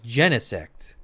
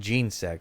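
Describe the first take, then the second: First: The first syllable sounds like 'jen'. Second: The first syllable sounds like 'gene'. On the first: The name comes from genetic. "as in genetic" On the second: The name comes from gene and insect. "I think of like gene and insect"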